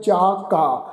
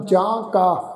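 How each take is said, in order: First: ਜਾ ਕਾ with pure oral long aa; no nasal in ਜਾ, straight on to ਕਾ; without nasal. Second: ਜਾਂ ਕਾ with nasal ਜਾਂ; nasalised wrong reading. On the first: Teacher models the correct scripture reading, un-nasalised ਜਾ ਕਾ. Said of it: "ਇਸ ਦਾ ਉਚਾਰਨ ਕਰਾਂਗੇ ਬਿੰਦੀ ਰਹਿਤ". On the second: Teacher warns congregation against this reading, nasalised ਜਾਂ ਕਾ. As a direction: nasalise the vowel in ਜਾਂ before ਕਾ. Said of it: "ਇਸ ਢੰਗ ਨਾਲ ਨਹੀਂ ਕਰਨਾ". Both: Shown as a demonstration.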